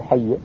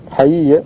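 First: حي as hay-ya, the two ya sounds fused; merged double letter. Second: حي drawn out as ha-yi-ya, both ya sounds separate; unmerged double letter. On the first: Teacher citing the form not used, حي merged into hay-ya. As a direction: say حي in two syllables with one doubled ya. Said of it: "لكنه لم يدغم". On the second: Teacher showing students an unmerged verb, حي with both ya sounds separate. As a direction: say حي in three syllables, the two ya letters unmerged. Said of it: "هذا غير مدغم". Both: Shown as a demonstration.

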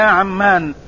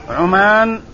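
First: عمان as ʕam-MAAN, with a doubled m; Amman pronunciation. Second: عمان as ʕu-MAAN, short u, single m; Oman pronunciation. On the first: Teacher rejecting this reading for Oman, عمان said ʕammaan with doubled m. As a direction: open عمان with a, hold the m, long aa. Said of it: "بفتح العين وتشديد الميم الممدودة". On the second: Teacher contrasting it with Amman, عمان said ʕumaan with short u. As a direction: open عمان with u, then a long aa. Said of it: "بضم العين وفتح الميم الممدودة". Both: Shown as a demonstration.

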